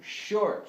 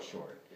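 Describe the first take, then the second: First: "short" punched much higher and louder; accented short. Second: Said in the usual way. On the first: Shown as a demonstration. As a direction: hit "short" hard and high. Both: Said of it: "I'm now accenting the first short note".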